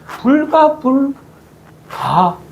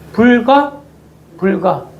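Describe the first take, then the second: First: The pause falls after the third syllable. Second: The pause falls after the second syllable. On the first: It must be done, however reluctantly. "이걸 다르게 띄어 읽으면" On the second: It must never be done. "이 말을 어떻게 띄어 읽느냐가 참 중요합니다"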